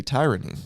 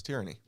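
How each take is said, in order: First: "tyranny" with TIE as first syllable; old long-i pronunciation. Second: "tyranny" with TEER as first syllable; corrected short-i pronunciation. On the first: Recalling own former habit to co-host, "tyranny" as TIE-ruh-nee. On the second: Correcting own old habit, "tyranny" as TEER-uh-nee. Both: Shown as a demonstration. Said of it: "I used to say".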